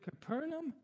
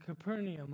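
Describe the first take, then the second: First: Capernaum said as kuh-PER-num; Capernaum ending in a plain "num"; three-syllable pronunciation. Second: Capernaum said as kuh-PER-nee-um; Capernaum ending in "nee-um"; four-syllable pronunciation. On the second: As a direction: say Capernaum with an extra "ee" before "um". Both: Shown as a demonstration. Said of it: "I've heard it pronounced both ways".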